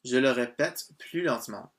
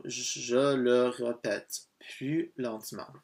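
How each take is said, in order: First: Said in the usual way. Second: Very slow, careful French model sentence; slowed-down demonstration. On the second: Shown as a demonstration. French teacher repeating the phrase for a learner, slowed right down. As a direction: sound it out word by word, stretched.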